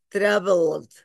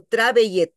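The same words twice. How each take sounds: First: "traveled" in two syllables, ending in a joined LD; swallowed E. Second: "traveled" read as spelt, with a full E syllable at the end; wrong pronounced E. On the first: Teacher showing students how she eats the E, swallowed E. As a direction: drop the last E of "traveled", straight from L to D. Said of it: "Me como la E". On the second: Teacher showing how not to pronounce it, sounded E. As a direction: sound out the last E in "traveled", Spanish-style tra-ve-yed. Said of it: "yo no digo traveled". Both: Shown as a demonstration.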